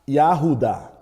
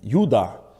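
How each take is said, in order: First: The name begins with a 'ya' sound. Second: The name begins with a 'yu' sound.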